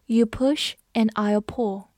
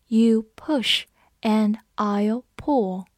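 First: Said in the usual way. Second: Word by word, with clear gaps; slow reading. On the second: Shown as a demonstration. Teacher models the review sentence for learners, slow reading. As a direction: read it slowly for learners to follow.

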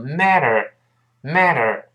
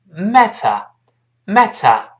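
First: American MATTER. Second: British "matter" with crisp t and no final r. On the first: Teacher showing the American reading, "matter" with voiced t and r. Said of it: "中间这个T读快之后会轻轻浊化一下". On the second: Teacher contrasting accents for learners, British pronunciation of "matter". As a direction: slowly say British "MAT-uh". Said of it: "英国人读出". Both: Shown as a demonstration.

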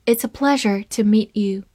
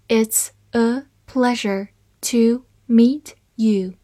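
First: Said in the usual way. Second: Slow, careful model reading. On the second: Shown as a demonstration. Teacher reading the sentence slowly for learners, slow and clear. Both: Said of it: "好，慢慢来读".

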